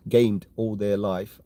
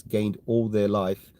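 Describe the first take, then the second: First: "gamed" said slowly and carefully as the fix; slow down and land on "gamed"; corrected word gamed. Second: Said in the usual way. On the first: Shown as a demonstration.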